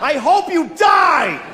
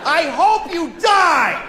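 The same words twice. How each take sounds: First: High, slow mock curse; mock shout at another driver; mock yell. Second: Higher, slow, drawn out; hammed-up road rage curse; mock road rage at another driver; mock yell. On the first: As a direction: spit it out like road rage. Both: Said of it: "I said that to a person".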